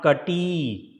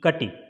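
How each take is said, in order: First: The final vowel is long. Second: The final vowel is short. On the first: The speaker calls it wrong. "not kati" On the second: The speaker calls it right. "you will be pronouncing it as a small e sound"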